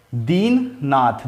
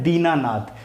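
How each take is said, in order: First: दीननाथ drawn out slowly, short न; slow split word. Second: दीनानाथ with a long ना; joined word. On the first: Teacher to students, sounding out दीननाथ slowly. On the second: Teacher to students, giving the joined form दीनानाथ. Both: Shown as a demonstration. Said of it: "न से ना हो जाता है".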